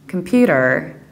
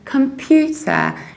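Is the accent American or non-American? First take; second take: American; non-American. First: It is said in an American accent. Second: It is said without an American accent.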